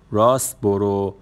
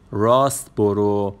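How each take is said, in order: Both takes have the same delivery.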